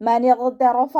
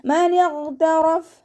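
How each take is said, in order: First: ഇഗ്തറഫ with an added vowel, ഇഗ്തറഫ-a; wrong reading. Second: ഇഗ്തറഫ് ending on a stopped ഫ്, chanted high; correct recitation. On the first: Teacher showing students the wrong vowel on ഇഗ്തറഫ. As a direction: say ഇഗ്തറഫ ending in an open a. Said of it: "എന്ന് ഓതരുത്". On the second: Teacher modelling the correct stop on ഇഗ്തറഫ്. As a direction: close ഇഗ്തറഫ് on a silent ഫ്. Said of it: "teacher recites correct ending". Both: Shown as a demonstration.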